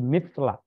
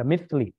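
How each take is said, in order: First: The word ends with an a vowel. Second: The word ends with an i vowel. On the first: The speaker calls it right. "tapi mithla karena itu maf'ul bih" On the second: The speaker calls it wrong. "jangan dibaca mithli"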